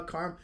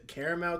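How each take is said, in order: First: "carm-" with the middle syllable dropped; "carm-" starting like "car"; alternate pronunciation. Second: "caramel" in three syllables; "caramel" with its middle vowel sounded; alternate pronunciation. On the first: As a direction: say "carm-" as KARM, cut off. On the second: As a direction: say "caramel" as CARE-a-mel. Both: Shown as a demonstration. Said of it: "it can be said two different ways".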